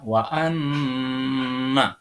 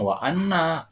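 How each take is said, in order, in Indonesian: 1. Bunyi nasal n ditahan sebentar. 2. Bunyi nasal n dibaca pendek dengan cepat. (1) "nanti agak ditahan ... kan agak lama kan?" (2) "Jangan langsung"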